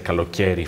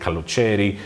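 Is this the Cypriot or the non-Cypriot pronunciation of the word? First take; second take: non-Cypriot; Cypriot. First: It is said in the non-Cypriot way. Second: It is said in the Cypriot way. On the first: The speaker calls it wrong. "they're not likely to say kalokeri for summer" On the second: The speaker calls it right. "They should be saying kalocheri"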